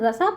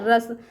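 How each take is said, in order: First: The word ends with an extra final vowel. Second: The word ends on the s sound. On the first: The speaker calls it wrong. "रसा नहीं ना, तो गलत है ना हमारा" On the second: The speaker calls it right. "रस पढ़ेंगे"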